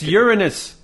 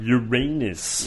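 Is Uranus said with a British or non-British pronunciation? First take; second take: British; non-British. First: The word is pronounced the British way. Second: The word is pronounced the non-British way. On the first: "That's the British way of pronouncing it" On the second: "Okay, fine"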